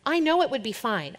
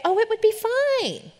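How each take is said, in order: First: Said in the usual way. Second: High, slow airy dismissal; mock the carefree answer; naive breeziness. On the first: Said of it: "I'm not gonna be dumb". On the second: Mocking the ignorant reply about losing her voice, high and airy. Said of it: "I'm not gonna be dumb and, and ignorantly say".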